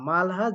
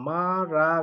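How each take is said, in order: First: The h sound is pronounced after the l. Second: The h is silent and l sounds like r. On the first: "মালহা মালহা" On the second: "যেটা উচ্চারণ হয় মারা গো"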